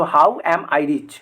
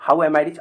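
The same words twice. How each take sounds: First: How am I rich drawn out slowly word by word; slow model answer. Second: Said in the usual way. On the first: Shown as a demonstration. (धीरे-धीरे उत्तर बताना) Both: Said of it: "अच्छा, यहाँ पे अमीर आ गया ना".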